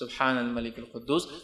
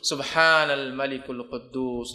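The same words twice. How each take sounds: First: It is said softly. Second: It is said loudly, with quddus drawn out.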